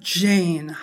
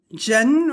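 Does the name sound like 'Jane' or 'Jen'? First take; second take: Jane; Jen. First: The name is said with a gliding 'ay' vowel. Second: The name is said with a short 'e' vowel. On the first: The speaker calls it right. "man kann Jane" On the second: The speaker calls it wrong. "nicht Jen oder so"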